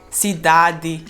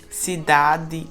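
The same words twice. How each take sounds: The two takes are said the same way.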